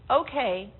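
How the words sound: It is said in an agreeable, accepting tone. It is all right. "The first, okay, it's all right"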